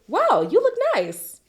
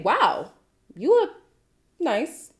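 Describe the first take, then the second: First: It is said in a warm, sincere tone. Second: It is said in a mocking, sarcastic tone. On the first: The speaker really thinks the listener looks nice. "you would come off with the impression that I think you look nice" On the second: The speaker does not really think the listener looks nice. "it's not the same thing"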